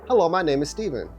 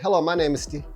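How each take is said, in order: First: The phrase is carried through to the end. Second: The phrase is cut short before the end.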